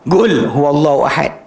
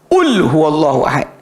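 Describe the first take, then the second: First: The first word starts with a hard g. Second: The first word starts with a glottal stop. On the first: "qaf jadi ga" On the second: "Qaf jadi hamzah"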